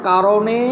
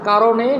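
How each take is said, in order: The two takes are said the same way.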